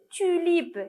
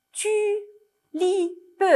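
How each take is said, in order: First: Said in the usual way. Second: "tulipe" in three high, separate syllables; split into syllables. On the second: Shown as a demonstration. Teacher helping children order syllables, "tulipe" chopped syllable by syllable. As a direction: sound out "tulipe" slowly as tu, li, pe. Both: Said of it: "des syllabes qui sont en désordre".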